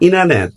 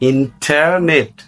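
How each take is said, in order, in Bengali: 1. এটি দ্রুত বলা হয়, প্রথম t বাদ পড়ে। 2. প্রথম t টি স্পষ্টভাবে উচ্চারিত হয়। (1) "দ্রুত উচ্চারণ করলে" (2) "No, not like that"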